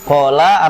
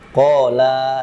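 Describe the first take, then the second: First: The final vowel is short. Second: The final vowel is long. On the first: One man said it. "kola artinya dia berkata" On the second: Two people said it. "Kola itu nanti dia dua orang berkata gitu"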